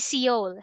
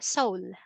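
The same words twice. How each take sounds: First: The E sound is pronounced in the word. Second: The E sound is left silent in the word. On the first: The speaker calls it wrong. "We don't say Seoul" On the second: The speaker calls it right. "we don't pronounce the E. Silent E"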